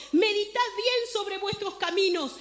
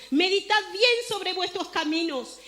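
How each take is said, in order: No difference in how they are said.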